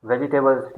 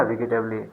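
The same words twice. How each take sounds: First: वेजिटेबल्स as "veji-tebuls", no "-lee"; correct pronunciation. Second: वेजिटेबली said wrongly as "vi-gi-teb-lee"; lower, mistaken "vigi-tebli" for वेजिटेबली; mispronounced "vegetable". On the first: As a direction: model वेजिटेबल्स with a j sound and "-buls" ending. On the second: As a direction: demonstrate the mistake, वेजिटेबली with hard g and final "-lee". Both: Shown as a demonstration. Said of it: "मत कहिएगा".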